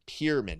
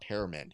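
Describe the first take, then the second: First: The first syllable sounds like 'pier'. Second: The first syllable sounds like 'pear'. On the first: The speaker calls it right. "Pierman, not Pearman" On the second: The speaker calls it wrong. "not Pearman"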